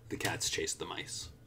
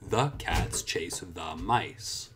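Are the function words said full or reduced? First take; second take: reduced; full. First: The small words are quick and blended in. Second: The small words are said fully and separately. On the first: The speaker calls it right. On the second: The speaker calls it wrong.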